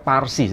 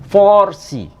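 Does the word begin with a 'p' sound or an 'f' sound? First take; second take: p sound; f sound. First: The word begins with a 'p' sound. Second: The word begins with an 'f' sound. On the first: The speaker calls it wrong. "yang tepat itu bukan Parsi sebetulnya" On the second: The speaker calls it right. "yang tepat"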